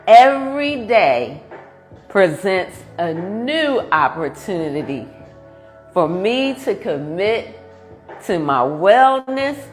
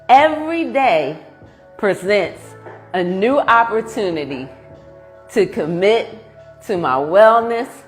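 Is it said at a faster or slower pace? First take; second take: slower; faster. First: It is said at a slower pace. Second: It is said at a faster pace.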